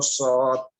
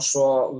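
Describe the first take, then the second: First: The letter is said with unrounded lips. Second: The letter is said with rounded, pushed-out lips.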